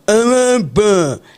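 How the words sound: The name is said thickly, as if mouth is full.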